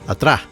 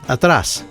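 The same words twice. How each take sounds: First: The final s is left out. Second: The final s is clearly sounded. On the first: "some might leave that S out" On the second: "the word for behind or in the back is atrás"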